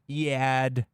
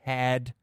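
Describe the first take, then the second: First: The word is drawled in a whiny pop-punk style. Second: The word is said in a plain ordinary way. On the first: "the way pop-punk fans pronounce the word" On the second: "Sorry, I mean head"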